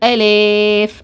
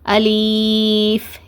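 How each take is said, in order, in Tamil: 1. நடு உயிரெழுத்து e-யை நோக்கி வளைகிறது. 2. நடு உயிரெழுத்து நீண்ட ee-வாக நீட்டப்படுகிறது. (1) "ஏ லே இந்த மாதிரி சாச்சி சாச்சி ஓதுவாங்க, இந்த மாதிரியும் ஓதக்கூடாது" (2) "லீன்னு நீட்டி ஓதுவாங்க, அந்த மாதிரி நீட்டி ஓதக்கூடாது"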